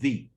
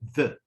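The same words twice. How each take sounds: First: The word is said with a full vowel. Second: The word is said with a reduced vowel. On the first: The speaker calls it wrong. "not the" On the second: The speaker calls it right. "this is the weak form of that"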